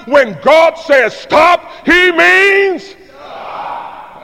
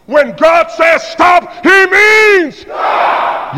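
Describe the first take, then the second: First: Slow, stretched shout, much higher; booming call. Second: Slow, loud and much higher, stretched; full shout. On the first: Shown as a demonstration. Preacher leading the congregation in a shouted refrain, booming. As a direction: boom out stop like a command. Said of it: "That's a little better". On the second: Real, not acted. Preacher at full force to the congregation, shouting. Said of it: "I think we're together now".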